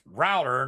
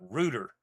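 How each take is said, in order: First: The first vowel sounds like the one in out. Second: The first vowel sounds like the one in boot. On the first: The speaker calls it right. "router is spelled R O U T E R, then it's router" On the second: The speaker calls it wrong. "not rooter"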